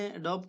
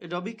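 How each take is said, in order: First: The name ends with a 'b' consonant. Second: The name ends with an 'ee' vowel. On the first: "कुछ लोग एडोब कहते हैं" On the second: "कुछ लोग एडोबी कहते हैं"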